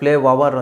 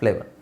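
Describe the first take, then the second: First: The word has three syllables, with an extra syllable. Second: The word has two syllables ending in a short vowel. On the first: The speaker calls it wrong. "ಫ್ಲೇ ವವರ್ ಅಂತ ಹೇಳೋದಲ್ಲ" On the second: The speaker calls it right. "ಫ್ಲೇ ವರ್ ಫ್ಲೇವರ್"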